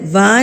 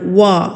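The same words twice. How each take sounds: First: It is made with teeth on lip, like v. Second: It is made with rounded lips, like w. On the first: The speaker calls it wrong. "वा नहीं पढ़ना आपने" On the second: The speaker calls it right. "होंठों को गुलाई करके गोल करके"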